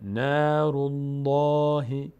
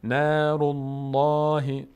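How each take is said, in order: The two takes are said the same way.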